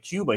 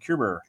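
First: The word ends in a plain vowel sound. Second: The word ends with an added r sound. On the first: "he couldn't say Cuba" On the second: "He'd say Cuber"

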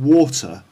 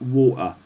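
First: The t is a clear tongue-tip t. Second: The t is replaced by a glottal stop. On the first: "instead of saying water" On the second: "it's like water"

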